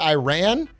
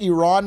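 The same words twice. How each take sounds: First: Iran is said the American way. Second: Iran is said the Persian way. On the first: The speaker calls it wrong. "George W. Bush ... who said it like that my entire childhood" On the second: The speaker calls it right. "my Persian friend told me that's how you should pronounce it"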